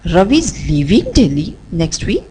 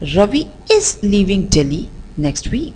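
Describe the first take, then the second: First: The stress falls on the word leaving. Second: The stress falls on the word is. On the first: "we'll shift the stress on the word leaving" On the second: "let's shift the stress on the word is"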